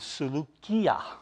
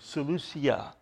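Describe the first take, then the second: First: The c is pronounced as a hard k sound. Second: The c is pronounced as a soft s sound. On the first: The speaker calls it right. "so it's a hard K, not a soft K" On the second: The speaker calls it wrong. "we want to always pronounce that as a soft"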